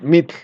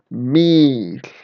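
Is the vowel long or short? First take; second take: short; long. First: The vowel is short. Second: The vowel is long. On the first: The speaker calls it wrong. "no es mitl" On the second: The speaker calls it right. "es mitl"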